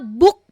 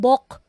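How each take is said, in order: First: The vowel is a short oo sound. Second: The vowel is an o sound. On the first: The speaker calls it right. "book po ang pronunciation niyan" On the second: The speaker calls it wrong. "hindi bok"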